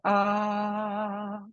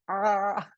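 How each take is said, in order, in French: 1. La voyelle est modérément ouverte et détendue. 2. La voyelle est forcée, avec des muscles tendus. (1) "comme ça, ça ça suffit largement" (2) "quand on veut trop bien faire, en fait, on fait A et du coup, on on on on tend tous les tous les muscles"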